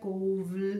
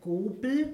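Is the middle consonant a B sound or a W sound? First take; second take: W; B. First: The middle consonant is a W sound. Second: The middle consonant is a B sound. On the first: "mit W" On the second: "mit B"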